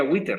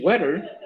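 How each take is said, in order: First: "witter" with the vowel changed from e to i; "witter" with a narrow i sound in place of the e; wrong pronunciation. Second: Said in the usual way. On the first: Shown as a demonstration. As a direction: say "witter" like wee-ter, not wetter. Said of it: "en vez de decir wetter, diría". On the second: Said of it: "en vez de decir wetter".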